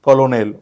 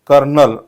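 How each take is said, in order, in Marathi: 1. तो तीन अक्षरी आहे, co-lo-nel. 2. तो दोन अक्षरी आहे, kernel सारखा. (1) "ना की कलोनेल" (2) "what is correct pronunciation? कर्नल"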